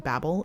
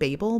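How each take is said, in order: First: The name sounds like the word babble. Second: The name does not sound like the word babble. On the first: This fits the joke nickname babblers. "it only makes sense in my brain for it to be Babel" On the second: This is how some other people say it. "Some people pronounce it Babel"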